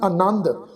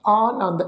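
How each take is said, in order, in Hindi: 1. पहला स्वर ह्रस्व है। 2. पहला स्वर दीर्घ है। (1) "ਇੱਥੇ ਐੜਾ ਅੱਖਰ ਮੁਕਤਾ ਵਾ ਜੀ। ਇਹਦਾ ਉਚਾਰਨ ਕਰਾਂਗੇ" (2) "ਐੜੇ ਨੂੰ ਕੰਨਾ"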